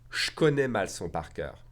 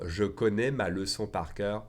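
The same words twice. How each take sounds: First: "Je connais" merged into "shkonnais"; fast spoken French. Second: Said in the usual way. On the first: Shown as a demonstration. Teacher contrasting the careful form, "Je connais" reduced to shkonnais. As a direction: swallow the E's, "leçon" becomes "l'çon". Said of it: "combine the J and the K together into shk". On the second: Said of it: "if I pronounce that one faster".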